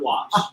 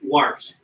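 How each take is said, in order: First: The vowel has no r sound after it. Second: The vowel is followed by an r sound. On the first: The speaker calls it wrong. "not Wash" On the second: The speaker calls it right. "It is Warsh. They say Warsh in Orange"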